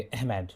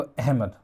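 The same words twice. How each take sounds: First: Lightly imitated British accent, अहमद drawn to "ehh-med". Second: Said in the usual way. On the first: Shown as a demonstration. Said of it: "अहमद को बोलेंगे तो वो ऐसे ही बोलेंगे". (हल्का British लहजा) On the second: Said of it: "अहमद मतलब थोड़ा सा ब्रिटिश एक्सेंट".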